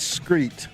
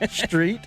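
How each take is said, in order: First: The word starts with an 'skr' sound. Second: The word starts with an 'str' sound. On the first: The speaker calls it wrong. "Don't say those words" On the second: The speaker calls it right. "It's a T, not a K"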